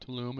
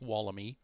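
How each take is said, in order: First: The name is said in the short form 'Tulum'. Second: The name is said in the full form 'Tuolumne'. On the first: The speaker calls it wrong. "It's not Tulum" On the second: The speaker calls it right. "it's pronounced Tuolumne"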